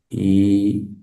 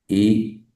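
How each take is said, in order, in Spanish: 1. La vocal se sostiene mucho tiempo. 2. La vocal se sostiene poco tiempo. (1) "yo hago con las largas" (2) "Son las cortas"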